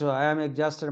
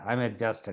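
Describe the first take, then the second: First: It is said in a plain, unexhausted way. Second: It is said in a worn-out, tired way. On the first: The speaker calls it wrong. "I am exhausted मत बोलिए" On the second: The speaker calls it right. "ऐसे बोलिए कि जैसे exhaust"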